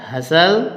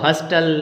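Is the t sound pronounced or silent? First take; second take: silent; pronounced. First: The t sound is silent in the middle. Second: The t sound is pronounced in the middle. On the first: The speaker calls it right. "ये होता है हसल" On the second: The speaker calls it wrong. "आप इसको हस्टल और बस्टल बोलते हो"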